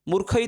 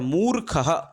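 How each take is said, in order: First: The first vowel is short. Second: The first vowel is long. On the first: The speaker calls it wrong. "मूर्ख मूर्ख इति कथने किम् अशुद्धं भवति" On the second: The speaker calls it right. "मू दीर्घौ अस्ति ... अतः मूर्खः एवं तत्र उच्चारणं भवति"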